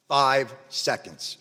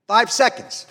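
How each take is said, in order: First: "Five seconds" slow, each word set apart; grave repetition. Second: "Five seconds" hit high and loud; emphatic repetition. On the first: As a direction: let "Five ... seconds" land slowly and separately. Repeats the figure slowly, gravely. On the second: Repeats the figure for emphasis. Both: Real, not acted.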